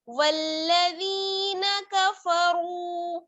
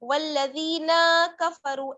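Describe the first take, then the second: First: The vowel after the n is kept short. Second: The vowel after the n is drawn out long. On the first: The speaker calls it right. "नून को जल्दी से पढ़ेंगे और फौरन पढ़ेंगे कफरू" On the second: The speaker calls it wrong. "नून को खींचना नहीं है, वल्लज़ीना कफरू ऐसे नहीं पढ़ना है"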